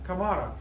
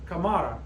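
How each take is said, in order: First: The stress is on the second syllable. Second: The same.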